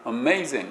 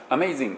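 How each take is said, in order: First: アメイジング with the consonants clustered, no extra vowels; アメイジング said as three English syllables, ending on ング; English-style amazing. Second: アメイジング with a vowel after every consonant, katakana-like; アメイジング said as flat Japanese katakana; Japanese-style amazing. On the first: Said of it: "英語っぽいですよね". (英語っぽく) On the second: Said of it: "日本語っぽいでしょ". (日本語っぽく) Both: Shown as a demonstration.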